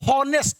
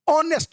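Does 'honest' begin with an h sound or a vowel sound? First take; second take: h sound; vowel sound. First: The word begins with an audible h sound. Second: The word begins directly with a vowel sound. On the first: The speaker calls it wrong. "ये हम नहीं बोलते हैं" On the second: The speaker calls it right. "ऑनेस्ट man कहते हैं"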